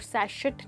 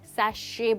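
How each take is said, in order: First: The word ends with a clear t sound. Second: The word ends without any t sound. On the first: The speaker calls it wrong. "सैशेट नहीं" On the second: The speaker calls it right. "जिसमें टी silent है ... but सैशे बोला जाता है"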